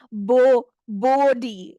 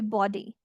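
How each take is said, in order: First: The first vowel is a long O sound. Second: The first vowel is a short O sound. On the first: The speaker calls it wrong. "it's difficult to pronounce as the other way" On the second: The speaker calls it right. "if you read it with the short O sound"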